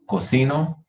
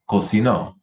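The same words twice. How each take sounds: First: Cocino with CI stressed and rising pitch; stress on middle syllable. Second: Cocinó with a firm final NÓ; stress on last syllable. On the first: Teacher repeating the present form, middle stress on cocino. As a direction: lift through the CI of cocino. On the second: Teacher repeating the past form, final stress on cocinó. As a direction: put the weight at the end of cocinó. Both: Shown as a demonstration. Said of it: "Listen to the difference".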